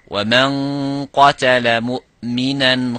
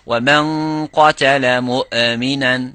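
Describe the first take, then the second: First: The hamza is held cleanly without any bounce. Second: The hamza is released with an echoing bounce. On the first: The speaker calls it right. "Give it a little bit of time. Properly sound it" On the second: The speaker calls it wrong. "This is قَلْقَلَ"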